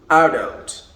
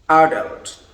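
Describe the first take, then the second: The two takes are said the same way.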